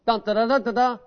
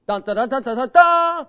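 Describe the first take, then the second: First: Sung trumpet call, still unfinished; imitated trumpet call. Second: Sung trumpet call climbing to a high, loud final blast; full trumpet fanfare. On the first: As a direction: tease the trumpet tune, stopping short. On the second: Retold or imitated. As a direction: finish the fanfare with a triumphant high note. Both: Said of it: "that trumpet's gonna go".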